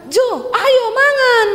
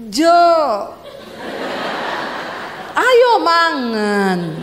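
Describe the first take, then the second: First: High, loud Sulawesi holler; angry-sounding call. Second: Very slow, drawn-out Javanese falling tune; attempted Javanese intonation. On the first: Acted. Wife calling husband to eat, high blunt shout. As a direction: holler it with the end kept high. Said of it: "nadamu tuh nesu". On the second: Wife trying Javanese on husband, slow exaggerated falling call. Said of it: "Ya saya akan coba".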